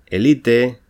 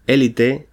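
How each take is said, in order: First: Elite with stress on the middle syllable, e-LI-te; unaccented elite. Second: Élite with stress on the first syllable, É-li-te. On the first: Teacher reading the unaccented form, elite stressed on LI. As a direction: say elite as e-LI-te, with no weight on the first e. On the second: Teacher reading the accented form, élite stressed on É. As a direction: lean on the opening É of élite. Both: Shown as a demonstration. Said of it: "con tilde o sin ella".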